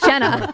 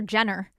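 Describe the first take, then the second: First: The name ends with a plain vowel sound. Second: The name ends with an added R sound. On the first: This is her actual name. The speaker calls it right. "Her name is Jenna" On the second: This is how the father mispronounces it. The speaker calls it wrong. "My dad can't even say my sister's name. He calls her Jenner"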